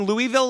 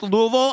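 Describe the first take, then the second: First: "Louisville" said LOO-ee-ville, every syllable clear; outsider pronunciation. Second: "Louisville" said LOO-uh-vul, middle swallowed; local pronunciation. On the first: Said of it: "saying Louisville like everybody else". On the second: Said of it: "it is pronounced Louisville". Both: Shown as a demonstration.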